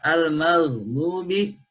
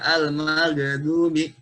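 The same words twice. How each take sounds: First: The other consonants are not bounced. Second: An extra consonant is bounced with an echo. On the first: The speaker calls it right. "ini tidak tidak mantul lainnya" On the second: The speaker calls it wrong. "jadi tidak dibaca"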